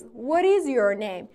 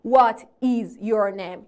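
First: The words are run together quickly. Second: The words are said separately, one by one.

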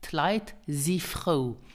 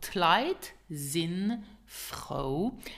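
First: The verb is reduced, dropping the final n. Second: The verb is said in full with final n.

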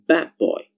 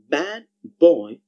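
First: The d at the end of bad becomes b. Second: The d at the end of bad is kept.

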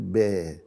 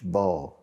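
First: The b is said thin, with lips drawn back. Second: The b is said thick, with lips pushed forward. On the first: The speaker calls it right. "نقول با" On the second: The speaker calls it wrong. "مش با"

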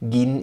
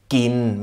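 First: The first sound is a soft g. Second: The first sound is a hard k. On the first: The speaker calls it wrong. "ist einfach falsch hier" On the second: The speaker calls it right. "mit einem harten K"

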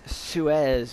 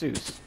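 First: The name is said a different, unfamiliar way. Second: The name is said the familiar, common way. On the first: This is said to be the original way of saying the name. The speaker calls it right. "It's Suez" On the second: This is how people usually say the name. The speaker calls it wrong. "not pronounced Seuss"

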